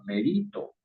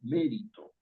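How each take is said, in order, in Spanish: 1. El acento está en la segunda sílaba. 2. El acento está en la primera sílaba. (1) "si lleva tilde en la I, entonces usted está diciendo que la palabra se pronuncia merito" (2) "la fuerza de voz está en la sílaba me"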